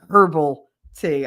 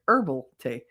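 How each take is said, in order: First: The starting H sound is pronounced. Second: The starting H sound is dropped. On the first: The speaker calls it wrong. "I don't drink herbal tea" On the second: The speaker calls it right. "I drink herbal tea"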